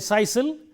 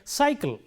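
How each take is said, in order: First: Both c letters are said with an s sound. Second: The first c sounds s, the second k. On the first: The speaker calls it wrong. "We don't say sisal" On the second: The speaker calls it right. "this letter stands for the S sound and this letter stands for the K sound"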